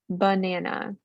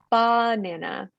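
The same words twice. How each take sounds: First: The first vowel is a reduced schwa. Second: The first vowel is a full, clear vowel. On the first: The speaker calls it right. "don't forget it can come at the beginning too" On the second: The speaker calls it wrong. "I know we want to say banana"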